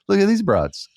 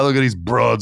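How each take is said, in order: First: It is said softly, in a relaxed way. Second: It is said forcefully, with hard consonants. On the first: It sounds casual and harmless. The speaker calls it right. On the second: It sounds offensive. The speaker calls it wrong.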